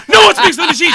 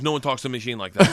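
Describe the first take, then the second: First: High, loud acted shout; gangster's loud insistence. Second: Gangster warning. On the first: Gangster defending his friend to the teacher, loud. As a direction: bellow it in mock outrage. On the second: Retold or imitated. Gangster defends his friend to teacher.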